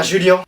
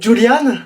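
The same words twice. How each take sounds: First: "Julien" with the French "ien" ending; "Julien", the right way; correct name. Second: "Julian" with an "an" ending; "Julian", the teacher's mistake; wrong reading. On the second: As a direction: mispronounce the name as "Julian". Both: Shown as a demonstration. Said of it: "je préfère Julien".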